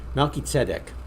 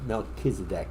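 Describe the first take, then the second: First: The name has a Hebrew pronunciation. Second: The name has the usual English pronunciation. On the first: "let me pronounce it the Hebrew way" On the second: "it's the way it's usually uh, uh, pronounced"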